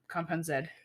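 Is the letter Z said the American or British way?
British. The letter Z is said the British way.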